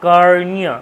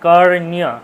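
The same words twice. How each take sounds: The two takes are said the same way.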